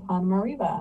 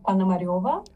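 First: The ending has a plain 'e' sound, like reva. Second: The ending has a 'yo' sound, like ryova. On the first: "there's no yo really in English, so they went with R-E-V-A instead" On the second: "Russian pronunciation would be Ponomareva"

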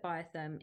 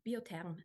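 First: The name is said with an English accent. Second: The name is said with a French accent.

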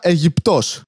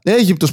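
First: The stress is on the last syllable. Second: The stress is on the first syllable. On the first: A joke name for Egypt's capital. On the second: The country Egypt.

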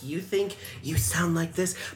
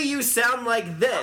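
First: The phrase is said quietly. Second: The phrase is said loudly, almost yelled. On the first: This is how the other person thinks they sound. "I think you sound like this" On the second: This is how the other person really sounds. "why are you yelling at me?"

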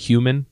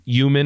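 First: All of the word's sounds are pronounced. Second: Part of the word's sounds is left out. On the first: This is the usual way to say it. "instead of" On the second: This is how the mother says it. "Like she just takes out portions"

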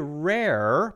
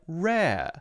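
First: The final R is curled in an American way. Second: The final R is open in a British way. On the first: "they don't say rare, because Americans say rare" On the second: "is instead more open, like rare"

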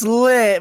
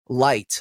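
First: The name has a short i vowel. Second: The name rhymes with the word light. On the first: "some people so it's lit" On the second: "like an actual light"

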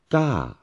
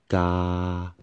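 First: The pitch goes up and then falls. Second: The pitch stays level throughout. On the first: "Third one, falling tone or mountain tone" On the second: "First one, flat tone"

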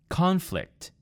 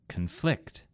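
First: The stress is on the first syllable. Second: The stress is on the second syllable. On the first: It is a noun. "In the first word, it was on the first syllable or part of the word" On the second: It is a verb. "in the second word, I moved the emphasis to the second syllable of the word"

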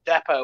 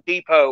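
First: It is said with a British pronunciation. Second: It is said with an American pronunciation.

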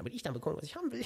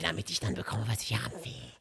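First: It is said in his normal voice. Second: It is said in a Gollum voice.

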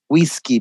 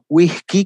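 First: The s is clearly hissed. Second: The s is breathy, like an h, Argentine style.

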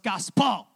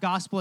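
First: The stress is on the last syllable. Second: The stress is on the first syllable. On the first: "he puts too much emphasis on the last syllable of it" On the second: "it's not gospel"

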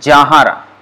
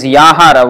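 First: The word begins with a j sound. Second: The word begins with a y sound. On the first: "the way it is pronounced usually by Bengalis is Jahara" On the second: "it is Yahara"

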